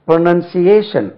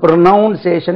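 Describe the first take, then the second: First: The second syllable sounds like 'nun'. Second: The second syllable sounds like 'noun'. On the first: The speaker calls it right. "இதுக்கு உச்சரிப்பு பாருங்க" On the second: The speaker calls it wrong. "என்று உச்சரிக்க கூடாது"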